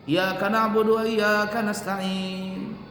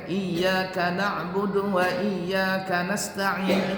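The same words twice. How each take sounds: First: Iyyaka na'budu with the double y held; correct doubling. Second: Iyyaka said as ijaka, single y; missing doubling. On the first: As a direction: recite slowly, stressing the doubled y. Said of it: "Itu pakai tasydid". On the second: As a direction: drop the doubled y. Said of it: "Nggak pakai". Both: Shown as a demonstration.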